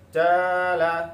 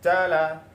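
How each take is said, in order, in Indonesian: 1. Vokal pertama ditahan panjang. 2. Kedua vokal pendek. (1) "yang ketiga jimnya yang panjang" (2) "yang pertama pendek semua"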